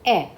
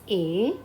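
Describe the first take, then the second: First: A as an open "eh"; E accent grave. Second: A as a closed "ay"; E accent aigu. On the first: Teacher revising accent grave, A said as open "eh". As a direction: say A short and open, like "eh". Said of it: "accent grave on E". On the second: Teacher revising accent aigu, A said as closed "ay". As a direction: say A long and close, like "ay". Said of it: "aigu on E". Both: Shown as a demonstration.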